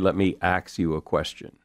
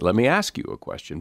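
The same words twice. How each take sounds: First: The verb is pronounced like ax. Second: The verb is pronounced like ask. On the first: "I would never say" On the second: "I would say"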